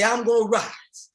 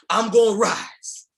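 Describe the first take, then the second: First: Said in the usual way. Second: Slow, loud chant from the belly; full-voiced call from the gut; from your stomach. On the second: Shown as a demonstration. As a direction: shout it out, slow and strong. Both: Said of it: "say it with me from your stomach".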